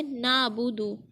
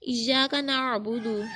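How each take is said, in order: First: ना अबुदु with plain open vowels, no throat ain; straight, ain dropped. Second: नअबुदु with a throat-squeezed ain after the न; ain sounded. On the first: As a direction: glide through ना अबुदु without squeezing the throat. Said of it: "अगर हम उसको सीधा पढ़ देंगे". (ना अबुदु को सीधा, आइन के बिना पढ़ें) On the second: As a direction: bring out the Arabic ain inside नअबुदु. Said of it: "आइन की आवाज़ निकल रही है". (नअबुदु में आइन को गले से निकालें) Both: Shown as a demonstration.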